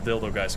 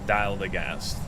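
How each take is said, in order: First: The first syllable sounds like 'dill'. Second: The first syllable sounds like 'dial'. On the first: It is a joke name. The speaker calls it wrong. "we're gonna be calling this the Dildo Guys because it's funny" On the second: It is the proper Dutch-style name. The speaker calls it right. "the correct pronunciation is Dial the Ghast"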